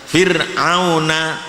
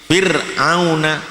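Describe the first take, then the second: Both takes have the same delivery.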